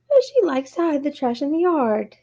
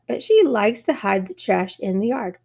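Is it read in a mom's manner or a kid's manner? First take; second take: kid; mom. First: It is read in a carefree kid's manner. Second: It is read in an exasperated mom's manner.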